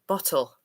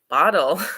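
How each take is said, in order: First: It is said with a British accent. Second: It is said with an American accent.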